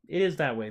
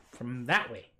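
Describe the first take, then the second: First: Is leaned on, falling after; stress on is. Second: Said in the usual way. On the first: Shown as a demonstration. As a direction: insist with a hit on is.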